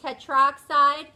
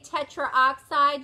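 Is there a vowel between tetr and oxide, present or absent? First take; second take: absent; present. First: No a sound comes before oxide. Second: An extra a sound comes before oxide. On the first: The speaker calls it right. "you say tetroxide" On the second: The speaker calls it wrong. "You don't say tetraoxide"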